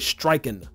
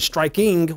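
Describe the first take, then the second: First: The word ends with a plain 'n' sound. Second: The word ends with a full 'ng' sound. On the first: The word is shortened to fit the rhythm. "we'll say striking, right? Just take that G off and just keep the N on it" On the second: The word keeps its full length. "instead of saying striking"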